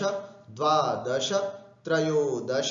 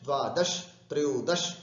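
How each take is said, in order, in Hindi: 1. हर शब्द श के बाद एक छोटे स्वर पर समाप्त होता है। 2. हर शब्द हलंत श पर समाप्त होता है, कोई स्वर नहीं। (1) "इस तरह से दश बोलना है।" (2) "ऐसा बोलने में श हमारा अलंत हो जाता है, जो कि अशुद्ध है।"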